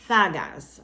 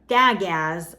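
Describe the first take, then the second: First: The word begins with a th sound. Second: The word begins with a hard d sound. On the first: The speaker calls it right. "it's actually gonna have the th sound at the beginning" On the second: The speaker calls it wrong. "it's not dagaz"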